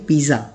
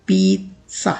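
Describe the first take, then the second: First: पिज़्ज़ा as "piza" with a z sound; the common wrong पिज़्ज़ा; wrong pronunciation. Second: पिज़्ज़ा as "pit-sa" with a ts sound; correct pronunciation. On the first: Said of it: "this is not the correct pronunciation". (पिज़्ज़ा का गलत उच्चारण) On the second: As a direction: model पिज़्ज़ा with ts. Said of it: "इसकी correct pronunciation कुछ इस तरह से होती है". (पिज़्ज़ा का सही उच्चारण) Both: Shown as a demonstration.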